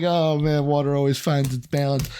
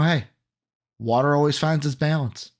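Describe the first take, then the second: First: It sounds glum and resigned. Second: It sounds hopeful and optimistic.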